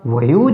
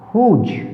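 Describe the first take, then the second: First: The word begins with a w sound. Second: The word begins with an h sound. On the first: The speaker calls it wrong. "अगर W बोला जाता तो वह की sound बोलता" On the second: The speaker calls it right. "यहाँ पर तो डब्ल्यू साइलेंट है"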